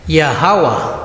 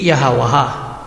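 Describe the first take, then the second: First: It is said as two syllables, without added vowels. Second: It is said as four syllables, each ending in a. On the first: The speaker calls it right. "Ang basa dito ay Yahweh" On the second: The speaker calls it wrong. "Hindi Yahawaha"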